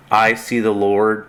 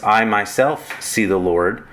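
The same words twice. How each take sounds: First: Said in the usual way. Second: "myself" leaned on as the added emphasis; the reflexive "myself" given light extra weight; stress on myself. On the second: Shown as a demonstration. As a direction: lift "myself" to show the emphatic subject. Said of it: "I like to use a reflexive pronoun".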